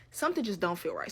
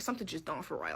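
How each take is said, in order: First: Said in the usual way. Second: Much softer, dropping low, gut feeling; uneasy murmur. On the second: Real, not acted. Narrator sensing something wrong, quietly uneasy. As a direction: say it under your breath, suspicious.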